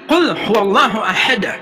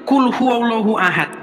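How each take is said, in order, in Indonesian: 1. Huruf d terakhir pada ahad berakhir dengan pantulan bergema. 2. Huruf d terakhir pada ahad berakhir datar, tanpa pantulan. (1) "tapi kul huwallahu ahad. Harus ahad gitu" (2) "bacanya bukan kul huwallahu ahad"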